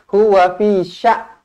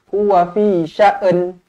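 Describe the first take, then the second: First: The last word ends with no n sound. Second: An extra vowel is added before the final n. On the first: "tak bunyi langsung"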